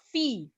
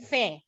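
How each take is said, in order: First: The vowel is a clear 'ee' sound. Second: The vowel is an open 'eh' sound. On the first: The speaker calls it right. "dia macam fa, fi, bukan fe" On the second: The speaker calls it wrong. "bukan fe"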